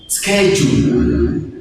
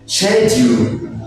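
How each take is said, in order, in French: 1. Il est prononcé avec un accent américain. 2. Il est prononcé avec un accent britannique. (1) "En anglais américain, schedule" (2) "En anglais britannique, ici, on prononce schedule"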